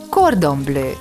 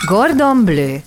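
First: The first word begins with a k sound. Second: The first word begins with a g sound. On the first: The speaker calls it right. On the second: The speaker calls it wrong.

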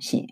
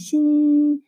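First: The syllable is said in the third tone. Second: The syllable is said in the first tone. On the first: "삼성" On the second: "일성"

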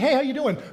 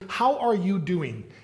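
First: It is tossed off casually in passing. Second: It is asked slowly with genuine interest.

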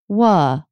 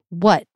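First: The word trails off with an up-down pitch. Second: The word ends in an abrupt stop. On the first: "Wha with no T. It's like, up, down shape" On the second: "What is abrupt stop"

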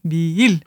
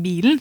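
First: It is said with a long, drawn-out i and no ending. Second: It is said with a clear -en ending. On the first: "vi trekker litt på i-en i midten der" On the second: "I stedet for å si bilen"

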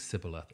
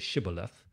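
First: The word begins with an s sound. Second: The word begins with an sh sound. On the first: The speaker is not from the region. The speaker calls it wrong. "he ends up saying Sibboleth" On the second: The speaker is from the local region. The speaker calls it right. "There's a way the Gileadites would say it"

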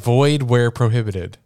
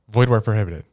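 First: It is said at a normal speed. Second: It is said quickly, rushed together.

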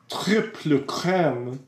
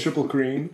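First: Crème is pronounced in a fancy, pretentious way. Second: Cream is pronounced in a plain, ordinary way. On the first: The speaker wants to sound sophisticated. "I just say it that way to sound pretentious" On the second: This is how people usually say it. "I think people will always say triple cream"

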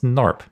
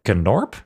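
First: The word starts with an N sound. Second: The word starts with a pronounced G sound. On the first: The speaker calls it right. "No, it's Norp. Nobody's going to pronounce the G" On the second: The speaker calls it wrong. "That's how you're going to pronounce that?"

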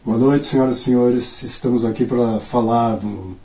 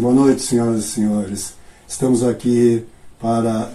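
First: It is said with engaged, energetic delivery. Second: It is said loosely, with little energy.

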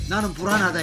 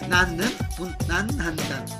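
First: The syllables keep their normal final consonants. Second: Extra 'n' final consonants are added to the syllables.

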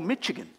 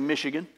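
First: The ch is said like 'tch'. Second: The ch is said like 'sh'. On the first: This is how outsiders said the name. The speaker calls it wrong. "they mispronounced Michigan... CH is pronounced CH to them" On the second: This is how locals say the name. The speaker calls it right. "We'd say Michigan"

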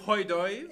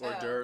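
First: The French pronunciation is strongly exaggerated. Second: The French pronunciation is said plainly.

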